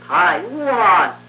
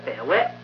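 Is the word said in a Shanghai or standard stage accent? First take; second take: standard; Shanghai. First: It is said with a wide-open mouth, stage style. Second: It is said with a narrow mouth, Shanghai style. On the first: The speaker calls it right. "怀来折的台和沿前折的湾" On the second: The speaker calls it wrong. "上海话呢就叫台湾"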